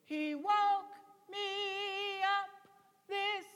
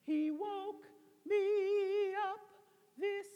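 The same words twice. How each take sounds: First: "He woke me up this" sung full from the chest. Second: "He woke me up this" sung high in head voice. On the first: Director demonstrating chest voice to the altos. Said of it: "this is my chest voice". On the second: Director demonstrating head voice to the altos. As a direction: sing "He woke me up this" light, up in the head. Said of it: "that's my head voice". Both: Shown as a demonstration.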